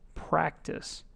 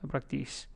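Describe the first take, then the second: First: The first syllable is clearly stressed. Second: The first syllable is not clearly stressed. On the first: The speaker calls it right. "you really want to hit the first part of it" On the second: The speaker calls it wrong. "those things do not stand out, and it's not clear"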